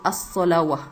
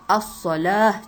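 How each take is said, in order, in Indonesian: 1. Ada bunyi 'w' sebelum suku kata terakhir. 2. Tidak ada bunyi 'w' sebelum suku kata terakhir. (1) "salah tu ya. Tak kena, tak betul" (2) "bacaannya tetap as-solah"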